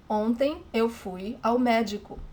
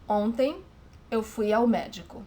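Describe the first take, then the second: First: Ontem eu fui ao médico, stress on médico; example sentence. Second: Ontem eu fui ao médico said clearly in Portuguese; example sentence. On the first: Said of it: "she needs to say médico". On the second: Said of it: "here's an example to show you". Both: Shown as a demonstration.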